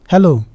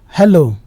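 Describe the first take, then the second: The two takes are said the same way.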